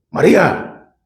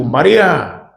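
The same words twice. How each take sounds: First: María raised a little in pitch, urging her to wake up; wake-up call. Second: Said in the usual way. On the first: Retold or imitated. Jesus calling Mary to wake up, urgent second call. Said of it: "como diciendo, agarra la onda, despierta". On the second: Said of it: "como diciendo, agarra la onda".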